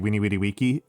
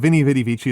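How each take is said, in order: First: Each word starts with a W sound. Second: Each word starts with a V sound. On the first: The speaker calls it right. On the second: The speaker calls it wrong.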